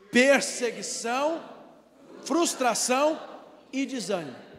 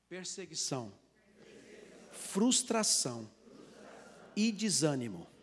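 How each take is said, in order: First: It is said louder and more forcefully. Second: It is said at normal volume.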